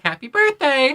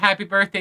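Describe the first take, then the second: First: It is said in a goofy way. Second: It is said in a polite way.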